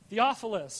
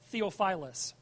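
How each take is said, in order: First: The name is said the speaker's usual way. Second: The name is said an alternative, odd-sounding way. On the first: The speaker calls it right. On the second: The speaker calls it wrong.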